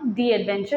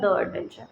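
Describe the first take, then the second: First: The word "the" sounds like "thee". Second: The word "the" sounds like "thuh". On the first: The speaker calls it right. "इसीलिए इस chapter का नाम है दी adventure" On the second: The speaker calls it wrong. "Not द adventure"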